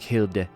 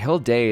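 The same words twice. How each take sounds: First: The name is said in a Norse style. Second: The name is said in a Japanese style. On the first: The speaker calls it right. "Norse people would pronounce it... It'd be like Hilde" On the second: The speaker calls it wrong. "Hilde is very Japanese"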